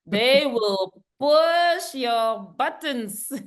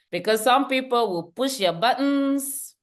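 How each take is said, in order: First: Slow emphatic repeat. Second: Said in the usual way. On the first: Shown as a demonstration. Speaker to audience, slowly stressing the warning. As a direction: push your buttons drawn out slowly.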